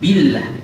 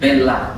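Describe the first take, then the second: First: The vowel after b is a clear 'i'. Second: The vowel after b leans toward 'e'. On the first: The speaker calls it right. "Tapi billah" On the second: The speaker calls it wrong. "ada imalah sedikit"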